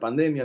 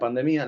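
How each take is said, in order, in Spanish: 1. Se pronuncia a la manera del español. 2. Se pronuncia a la manera del portugués brasileño. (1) "la pandemia en español" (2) "como dice en Brasil"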